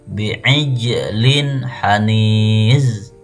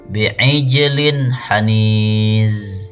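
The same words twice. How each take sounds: The two takes are said the same way.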